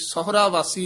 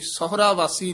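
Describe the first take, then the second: First: The syllables are grouped as sahura, then vaasi. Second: The same.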